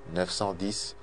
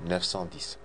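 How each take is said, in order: Both takes have the same delivery.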